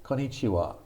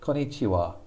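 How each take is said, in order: The two takes are said the same way.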